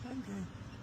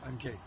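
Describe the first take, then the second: First: It is said in an exaggerated put-on voice. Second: It is said in his normal voice.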